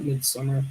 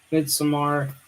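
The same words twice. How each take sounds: First: Midsommar said "mid-SUM-er", ending in an r-coloured schwa; "Midsommar" with an English -mer ending, MID-sum-er; wrong pronunciation. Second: Midsommar said "mid-suh-MAR", ending in a full "mar"; "Midsommar" ending in a clear "mar", not "mer"; corrected pronunciation. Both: Shown as a demonstration. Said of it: "not Midsommar".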